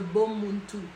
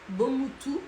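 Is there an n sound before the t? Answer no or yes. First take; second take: yes; no. First: There is an n sound before the t. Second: There is no n sound before the t.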